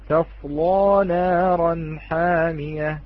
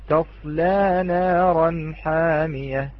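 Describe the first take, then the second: First: The L is heavy and the vowel is open. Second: The L is light and the vowel is tilted. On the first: "عندما نقرأها بالفتح غلظنا اللام" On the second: "عندما نقرأها بالتقليل نرقق اللام"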